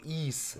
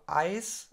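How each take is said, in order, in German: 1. Er beginnt mit einem 'ee'-Vokal und langem S. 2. Er beginnt mit einem 'eye'-Vokal und kurzem S. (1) "dass das I normal ausgesprochen wird und dann das S so ein bisschen lang" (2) "wird ganz normal einfach nur Ice. Ne"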